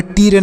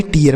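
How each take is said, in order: First: टीयर squeezed into one syllable, "teer"; wrong one-syllable reading. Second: टीयर said as "tee-yer"; correct two-syllable reading. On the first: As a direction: drop the "yer" glide from टीयर. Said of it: "टीयर नहीं". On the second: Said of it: "टीयर पढ़ा जाएगा". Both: Shown as a demonstration.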